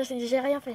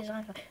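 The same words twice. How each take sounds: First: Said in the usual way. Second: Quiet repeat. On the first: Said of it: "repeats the same denial". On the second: Shown as a demonstration. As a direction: repeat "j'ai rien fait" much softer. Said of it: "repeats the same denial, softer". (redire « j'ai rien fait » beaucoup plus doucement)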